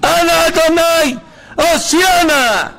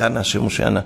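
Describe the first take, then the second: First: Very high, drawn-out full shout; loud cry-out. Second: Said in the usual way. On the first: Shown as a demonstration. Preacher leading listeners to cry for salvation, loud shout. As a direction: cry it out to heaven, slow and loud. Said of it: "נצעק, תצעקו אחריי, ככה חזק". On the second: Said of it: "נצעק, תצעקו אחריי".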